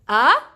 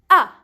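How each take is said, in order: First: The pitch rises from low to high. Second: The pitch falls sharply from high. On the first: "you go from down and you go up with your voice" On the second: "You go from up, up, up, then you go down with your voice"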